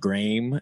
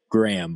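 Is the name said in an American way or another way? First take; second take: other; American. First: The name is said with a non-American pronunciation. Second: The name is said with an American pronunciation. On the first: The speaker calls it wrong. "but it's like Graham" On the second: The speaker calls it right.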